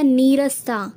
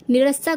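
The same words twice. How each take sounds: First: नीरस्ता with long ee, "nee-rasta"; correct form. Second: निरस्ता with short first i, "ni-rasta"; wrong form. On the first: Teacher giving the correct word, नीरस्ता with long nee. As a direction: lean on and hold the 'nee' in नीरस्ता. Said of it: "सही जो शुद्ध रूप". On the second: Teacher rejecting the wrong word, निरस्ता with short ni. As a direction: clip the 'ni' in निरस्ता. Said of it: "कुछ नहीं होता". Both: Shown as a demonstration.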